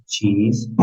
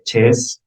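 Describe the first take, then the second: First: "cheese" with a long "ee"; pronunciación correcta. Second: Wrong "chess" for cheese, with a short E; mispronunciation. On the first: Shown as a demonstration. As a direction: say "cheese" the correct English way, "cheez". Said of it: "con su pronunciación". ("cheese" bien pronunciado, con "i" larga) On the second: Acted. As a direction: say "chess" where long "ee" belongs. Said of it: "decir la pronunciación totalmente incorrecta". ("chess" mal dicho, con "e" en vez de "i")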